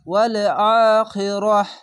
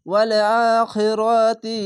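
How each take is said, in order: First: The word ends in h with a stop. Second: The word ends in ti and runs on. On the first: The reading stops at this word. "এভাবে থেমে গেলে হা হয়ে যায়" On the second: The reading continues into the next words. "মিলিয়ে পড়লে এভাবে মিলিয়ে পড়বেন"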